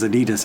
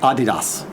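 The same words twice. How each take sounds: First: It uses the usual American pronunciation of the name. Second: It uses the German-style pronunciation of the name. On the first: This is how people locally have always said it. The speaker calls it wrong. "we, of course, totally butcher it here" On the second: This is how the brand's home country says it. The speaker calls it right. "proper way to pronounce things"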